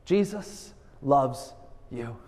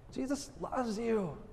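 First: Slow and deliberate. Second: Soft and tender. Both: Shown as a demonstration. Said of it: "Can you do it with this simple message?".

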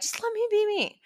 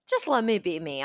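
First: A light, cheeky whine; playful pleading. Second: Said in the usual way. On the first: Real, not acted. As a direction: pitch jumps much higher, sing-song plea.

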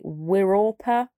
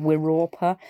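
First: "Wirorpa" sounded out slowly, syllable by syllable, with a rising end; first try at "Wirorpa", slow and careful, ending up like a question; careful attempt. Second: "Wirorpa" said again at normal speed in her own southern English accent; quick second try. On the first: Vlogger tries a word she struggles to say, slow and careful. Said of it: "then I'm gonna attempt to say it".

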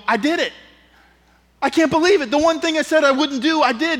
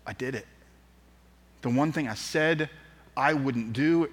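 First: High, loud, incredulous confession; acted disbelief. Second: Ashamed. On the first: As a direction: confess it in high-pitched amazement. Acts out shocked self-admission. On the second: Acted. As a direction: admit it softly, weighed down by shame. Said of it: "in his shame".

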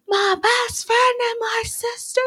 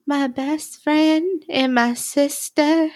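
First: Imitated yell. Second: Higher, slow, drawn-out imitation; softened repeat. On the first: Host retelling Ross catching the couple kissing, mock yell. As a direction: yell it high and strained, imitating him. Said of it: "he yells". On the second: Host retelling Ross accepting they're in love, softened imitation. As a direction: imitate him saying it slowly, in a changed tone. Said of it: "Ross then adjusts his perspective and repeats".

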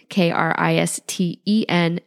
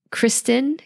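First: Each letter of "K R I S T E N" said separately and clearly; spelled out letter by letter. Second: Said in the usual way. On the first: Shown as a demonstration. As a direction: spell "K R I S T E N" one letter at a time.

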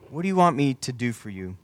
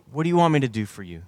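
First: Unhurried, slightly softened question; deliberate question. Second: Asked quickly in one run. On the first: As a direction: repeat it with room for each word. Same question repeated more deliberately. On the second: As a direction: ask it briskly, in an understated way. Jesus' question, first quick take. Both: Acted.

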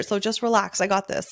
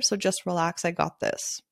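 First: Mildly exasperated brush-off; frustrated outburst. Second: Easy, settling, softer at the end; calm. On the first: Photographer imagining venting at a client, mildly frustrated. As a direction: push back with a touch of frustration. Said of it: "in a frustrated way". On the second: Photographer calmly reassuring a stressed client, calm. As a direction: reassure calmly, letting the voice drop. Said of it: "even if I said it calmly". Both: Retold or imitated.

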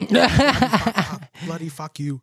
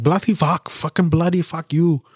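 First: Laughing repeat. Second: Shouted mock British swearing, higher; imitating Indian guys cursing in English, mock British. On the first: Retold or imitated. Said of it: "S0 laughs". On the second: To friend, retelling a road rage video: shouted mock British cursing. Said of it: "And they're like".

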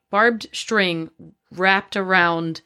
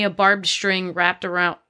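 First: Slow, deliberate reread; slow careful reread. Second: Said in the usual way. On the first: A narrator's reading. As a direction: stretch out every word slowly.

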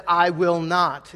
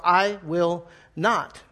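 First: Slow, blunt refusal; slow emphatic "I will not."; emphatic rude refusal. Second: Very slow, clipped-off "I will not."; abrupt refusal. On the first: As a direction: flatly refuse the father. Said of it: "very emphatic, very rude". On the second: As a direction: slam the door on the request. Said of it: "just very abrupt". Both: Retold or imitated.

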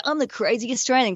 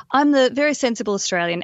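First: Mock self-intro. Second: Mock prim self-intro. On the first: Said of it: "You don't wanna go". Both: Shown as a demonstration.

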